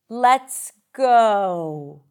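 The voice falls at the end. "falling intonation, usually associated with statement, where we start and then we drop down"

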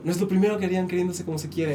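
It is said as a statement, falling.

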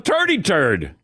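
The th sounds are said like t. "he just said turd"

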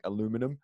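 It is said the American way, four syllables. "I feel like Americans sometimes really pronounce every letter in the word, like"

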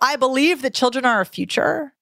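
The voice rises at the end. "which is upspeak and vocal fry together"

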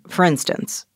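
The pitch stays level throughout the phrase. "in my normal speech, I would say, for instance— And that's a plateau"

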